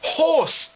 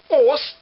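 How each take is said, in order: First: The first H sound is pronounced. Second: The first H sound is dropped. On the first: The speaker calls it right. "it's horse" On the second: The speaker calls it wrong. "You don't say horse"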